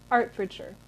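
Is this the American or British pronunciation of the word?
British. It is said with the local British pronunciation. The speaker calls it right. "it's Hertfordshire"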